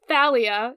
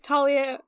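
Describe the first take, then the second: First: The name begins with a TH sound. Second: The name begins with a plain T sound. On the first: "the Greek way where it's, like, the T H sound" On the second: "Now you're getting me to do it"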